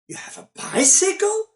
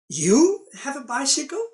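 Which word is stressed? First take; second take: bicycle; you. First: The stress falls on the word bicycle. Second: The stress falls on the word you. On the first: It is a bicycle, not the expected car. "meaning I thought you did everything by car" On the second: Only this person has one, not the others. "meaning the others do not have"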